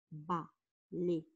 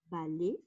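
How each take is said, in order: First: "balai" broken in two, ba, pause, lai; split into syllables. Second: Said in the usual way. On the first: Shown as a demonstration. Teacher counting syllables for pupils, "balai" split as ba-lai. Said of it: "Nous avons deux syllabes". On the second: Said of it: "Le mot balai".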